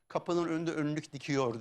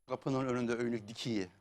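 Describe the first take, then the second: First: The last word ends in the standard Turkish form. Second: The last word ends in the local dialect form. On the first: It loses the region's own flavour. The speaker calls it wrong. "Ben biri okumuş dinledim" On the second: It keeps the region's own flavour. The speaker calls it right. "ağzı lehçesi var kendine özel"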